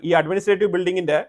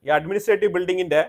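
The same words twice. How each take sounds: The two takes are said the same way.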